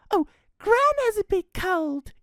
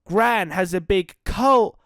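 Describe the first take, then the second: First: Put-on high, bright little girl voice; young girl Red. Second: Said in the usual way. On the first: Little Red explains to the Ranger, high girl voice. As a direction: redo the line as the little girl. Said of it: "explained Red". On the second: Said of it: "Oh, Gran has a big cold," explained Red".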